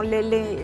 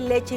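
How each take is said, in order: First: The middle consonant is an l sound. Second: The middle consonant is a ch sound. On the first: The speaker calls it wrong. "y no lele" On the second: The speaker calls it right. "la debe de decir bien"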